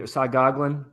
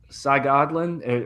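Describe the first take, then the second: First: "Cy Goglin" run together at normal speed, stress on "Goglin"; second, quicker take of "Cy Goglin"; quicker variant pronunciation. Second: "Cy Goglin" stretched slowly, "Cy" then "Goglin" with a falling tune; careful slow "Cy Goglin"; slow drawn-out pronunciation. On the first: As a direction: say "Cy Goglin" briskly as one word. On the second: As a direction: say "Cy Goglin" slowly, lingering on each part. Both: Shown as a demonstration. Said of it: "different ways to pronounce it".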